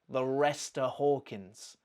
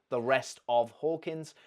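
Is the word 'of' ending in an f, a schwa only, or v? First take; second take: schwa; v. First: The word 'of' is reduced to a weak vowel. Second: The word 'of' ends with a v sound. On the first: "Nothing. It's just a" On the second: "So she's lost that v"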